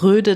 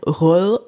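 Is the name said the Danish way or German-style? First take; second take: German-style; Danish. First: The name is said with simplified German pronunciation. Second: The name is said with Danish pronunciation. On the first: "Ich würde mal sagen, sagt Röde dazu und fertig" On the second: "das O durchgestrichen ist ein Ö auf Dänisch ... Röll kann kein Mensch aussprechen"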